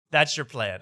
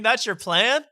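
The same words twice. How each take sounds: First: Said in the usual way. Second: High, rising disbelief; incredulous question. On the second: Real, not acted. Host challenging the comedian's fundraising scheme, incredulous.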